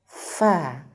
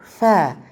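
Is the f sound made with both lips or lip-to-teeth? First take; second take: lip-to-teeth; both lips. First: Lower lip touches upper teeth for the f. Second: Both lips blow air for the f. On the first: The speaker calls it right. "bibir bawah, nyentuh ujung gigi seri atas. ... ya seperti itu" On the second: The speaker calls it wrong. "Bukan dua bibir, ... Atau bahkan angin"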